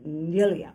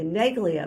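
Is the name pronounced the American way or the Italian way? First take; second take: Italian; American. First: The name is said with an Italian pronunciation. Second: The name is said with an American pronunciation. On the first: "but of course the Italian pronunciation would be" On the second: "the American pronunciation would be"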